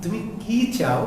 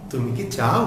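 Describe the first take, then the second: First: High, drawn-out "কি", falling on "চাও"; what-question stressing a long "কি". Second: Quick short "কি", rising on "চাও"; low, soft yes-or-no question, "কি" unstressed. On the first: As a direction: stretch "কি", then drop through "চাও". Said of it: "দীর্ঘ করে উচ্চারণ করতে হবে". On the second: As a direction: clip "কি" short, lift "চাও". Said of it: "ছোট করে দ্রুত উচ্চারণ করতে হবে". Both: Shown as a demonstration.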